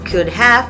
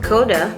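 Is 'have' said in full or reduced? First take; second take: full; reduced. First: 'Have' is said in full. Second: 'Have' is reduced to a short 'a' sound. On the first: "the written could have" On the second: "becomes coulda"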